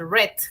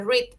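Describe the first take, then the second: First: The word sounds like the colour 'red'. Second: The word does not sound like 'red'. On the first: It is the past tense of 'to read'. "en pasado se dice red, como el color rojo" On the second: It is the present tense of 'to read'. "En presente se dice read"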